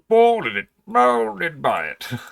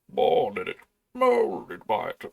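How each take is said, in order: First: The put-on character voice is weak. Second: The put-on character voice is stronger. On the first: The speaker calls it wrong. "I can do better with that voice" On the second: The speaker calls it right. "It's a bit more like that"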